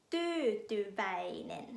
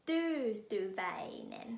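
First: Tyytyväinen very slow, syllable by syllable; Finnish word. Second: Tyytyväinen whispered very slowly; whispered repeat. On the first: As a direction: spell out Tyytyväinen slowly. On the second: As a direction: breathe Tyytyväinen out again as a whisper. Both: Shown as a demonstration. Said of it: "คำสุดท้ายหลายพยางค์".

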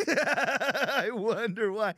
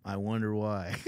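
First: High, very slow and drawn out with laughter; mock wondering, laughing. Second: Said in the usual way. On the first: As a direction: stretch each word out through a laugh.

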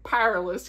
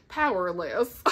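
First: Southern Powerless, said as pʰæɹələs. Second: Said in the usual way. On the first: Shown as a demonstration. Telling viewers she said Powerless so Southern. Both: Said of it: "Y'all like how I said that so Southern?".

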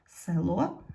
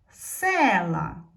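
First: "Село" stressed on the final о, е left unstressed; "Село" as a lead-in, weight on the last syllable; stress on second syllable. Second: "села" with a loud, drawn-out stressed е; "села" stressed on се, the е clear and long; stress on first syllable. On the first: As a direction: say "Село" with the beat on ло, pitch rising. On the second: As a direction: punch the first syllable of "села", then fall. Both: Shown as a demonstration. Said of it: "щоб ненаголошена е стала наголошеною".

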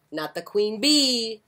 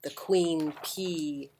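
First: "not the queen bee" with bee stressed; "not the queen bee" hitting bee as contrast. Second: "The queen P" slow, with P stressed; "The queen P" pressing on the letter P. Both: Shown as a demonstration.

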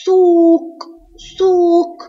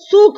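First: سوق with a high, long oo; long waw. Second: Said in the usual way. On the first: Shown as a demonstration. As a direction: stretch the vowel of سوق before the final q. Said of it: "سوق فيها مد واو". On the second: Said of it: "فيها مد واو".

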